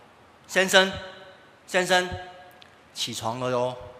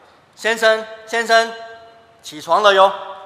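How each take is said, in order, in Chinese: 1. 这句话是轻声说的。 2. 这句话是稍微大声一点说的。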